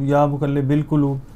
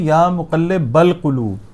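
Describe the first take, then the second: First: The vowel after muqallib is i. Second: The vowel after muqallib is a. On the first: The speaker calls it wrong. "गलत है।" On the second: The speaker calls it right. "ये सही है"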